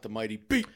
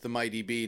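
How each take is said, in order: First: It is said loudly with excitement. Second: It is said flatly, without excitement.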